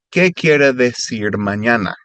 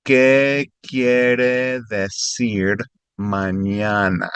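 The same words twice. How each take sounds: First: Said in the usual way. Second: Each word drawn out slowly for a learner; slow teaching read. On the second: Shown as a demonstration.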